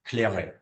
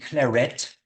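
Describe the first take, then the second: First: The final T is silent. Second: The final T is clearly sounded. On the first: It is the French term for a clear red wine. "We don't pronounce the T at the end" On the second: It is the English term for a red wine. "and we pronounce the T"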